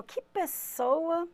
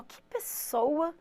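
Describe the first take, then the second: First: Slow, softer, suspicious Que pessoa; doubtful tone. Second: Slow, softer, impressed Que pessoa; admiring tone. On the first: Teacher shows students a worrying Que pessoa, slow and soft. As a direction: let Que pessoa sound like a veiled insult. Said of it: "se fala assim, ó". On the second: Teacher shows students a complimentary Que pessoa, slow and soft. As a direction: let Que pessoa sound like praise. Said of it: "essa cara que a teacher fez". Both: Shown as a demonstration.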